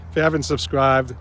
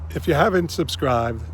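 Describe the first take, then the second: First: Said in the usual way. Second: Fighting back tears, a bit choked; choking up. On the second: Real, not acted. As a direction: voice catching with emotion. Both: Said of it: "excuse me, I'm choking up".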